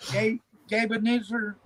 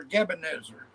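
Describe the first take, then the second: First: "Gabe" with a long A, as in babe; first pronunciation. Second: "Gabe" with a short E, like GEB; second pronunciation. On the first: Guest checking a panel member's name, long-A pronunciation. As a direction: say "Gabe Ebenezer" with "Gabe" as GAYB. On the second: Offering an alternative way to say a name, short-vowel pronunciation. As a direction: say "Gabe Ebenezer" starting GEB-uh. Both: Shown as a demonstration. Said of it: "Am I saying that right?".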